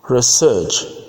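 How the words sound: It is said with a British accent. "All those words I pronounce them in British English"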